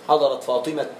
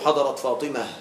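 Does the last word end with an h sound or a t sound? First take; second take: t sound; h sound. First: The final word ends with a stopped t sound. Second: The final word ends with a soft h sound. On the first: This is a less common but allowed way to stop. "ويجوز قليلا بتاء ساكنة" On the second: This is the usual way to stop on the word. "يوقف غالبا بهاء ساكنة"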